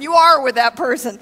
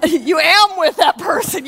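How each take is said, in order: First: Are said firmly as the fix; corrected word. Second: Laughing over a mix-up of am; grammar slip. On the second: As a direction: say am where are belongs, with a laugh. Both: Real, not acted.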